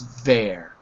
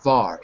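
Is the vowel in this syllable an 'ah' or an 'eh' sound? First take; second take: eh; ah. First: The vowel is an 'eh' sound. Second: The vowel is an open 'ah' sound. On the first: The speaker calls it right. "it's ver" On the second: The speaker calls it wrong. "it looks like var, but it's not var"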